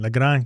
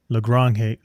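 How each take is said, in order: First: The name is said with a rolled R. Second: The name is said with a plain English R. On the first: The speaker calls it right. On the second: The speaker calls it wrong.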